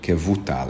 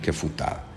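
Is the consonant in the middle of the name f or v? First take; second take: v; f. First: The middle consonant is a voiced v sound. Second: The middle consonant is a voiceless f sound. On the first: The speaker calls it right. "a helyes kiejtése ennek a névnek, Zacharia ben Kevutál" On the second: The speaker calls it wrong. "és nem pedig Kefutál"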